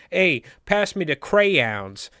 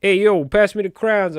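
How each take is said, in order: First: CRAYONS in two careful syllables, slow and higher; slow mock-proper line ending on two-syllable CRAYONS; non-New-York crayons. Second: Louder, higher New York street call; put-on New York "hey, yo"; New Yorker accent. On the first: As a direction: spell out CRAY-ONS slowly, mocking it. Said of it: "That's not what you say in New York". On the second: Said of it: "I'm a New Yorker".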